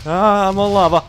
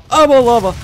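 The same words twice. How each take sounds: First: Loud alarmed cry; alarmed shout. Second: Higher, louder panicked yell; louder panicked shout. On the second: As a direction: scream it in rising panic. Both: Real, not acted. Panics standing on lava.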